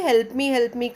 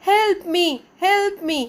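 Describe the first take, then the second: First: Said in the usual way. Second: High, calling out help me; elf calling for help. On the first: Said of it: "और वो ऐसे ... करके आवाज़ देता था". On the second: Acted. Elf calling to Patrick for help. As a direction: call out like a needy little elf. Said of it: "और वो बुलाता था".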